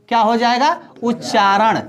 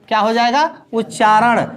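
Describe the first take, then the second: The two takes are said the same way.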